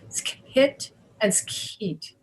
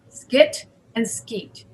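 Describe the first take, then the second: First: The k sounds have a puff of air. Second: The k sounds have no puff of air. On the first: "with air" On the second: "without air"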